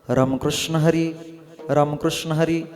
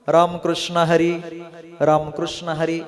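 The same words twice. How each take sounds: First: It is said in a low, deep voice. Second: It is said in a higher, louder voice.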